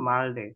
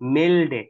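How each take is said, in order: First: The first vowel is an open 'a' sound. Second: The first vowel is an 'e' sound. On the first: The speaker calls it wrong. "এখানে আ কি লেগে বলছেন" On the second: The speaker calls it right. "এটা এ।"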